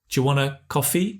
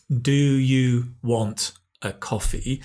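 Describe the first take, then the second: First: 'Do you' blends into a 'j' sound. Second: Each word of 'do you' is said separately.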